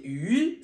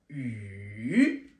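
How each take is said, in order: First: The pitch rises from middle to high. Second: The pitch falls low, then rises again. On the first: It means fish. "C'est le poisson" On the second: It means rain. "c'est la pluie"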